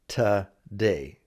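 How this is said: The first syllable is reduced, like 'ta'.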